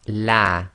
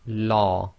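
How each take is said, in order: First: The l sounds light, with an open mouth. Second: The l sounds heavy, with a full mouth. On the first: "light, empty mouth" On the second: "heavy fashion, that is tafkhim, or full mouth"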